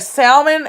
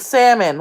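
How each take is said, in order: First: The L sound in the word is pronounced. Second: The L sound in the word is silent. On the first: "With an L" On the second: "without an L"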